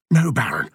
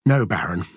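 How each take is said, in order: First: Higher-pitched, alarmed objection; horrified. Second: Said in the usual way. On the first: A narrator's reading. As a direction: stop him, horrified. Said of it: "Andrew was horrified". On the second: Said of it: "Andrew couldn't understand it".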